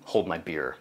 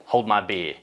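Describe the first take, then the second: First: Lightly voiced Australian accent, "beer" said "beah". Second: Redone Australian take, "beer" said "bee" with no r; a corrected, slightly broader Australian "Hold my beer"; stronger Australian accent. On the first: Sheep farmer [name] answers the ecosystem, in a mild Australian accent. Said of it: "I just love the way Australians say beer". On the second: Retold or imitated. [name] retries his reply in an Australian accent. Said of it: "Oh, excuse me".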